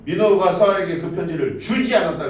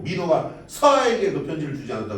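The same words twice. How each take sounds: First: The stress falls on the word 주지. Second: The stress falls on the word 서아에게. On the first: Something was done with the letter, but it was not given. "그 편지를 읽기는 했는데 뭔가 주진 않은 거" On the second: The letter was given, but not to this recipient. "민호가 편지를 주긴 줬는데 서아에게 준 건 아니라는 거지"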